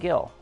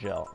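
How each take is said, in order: First: The name begins with a hard G sound. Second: The name begins with a soft J sound. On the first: The speaker calls it wrong. "I was calling him Gil" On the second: The speaker calls it right. "it's actually Jill pronounced"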